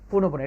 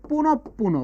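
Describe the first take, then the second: First: The p between the words is said once. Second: The p between the words is doubled. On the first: The speaker calls it wrong. "Maximum ভুল হয়েছে" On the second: The speaker calls it right. "বিসর্গের পরের যে বর্ণটা আছে সেটা দ্বিত্ব উচ্চারিত হবে"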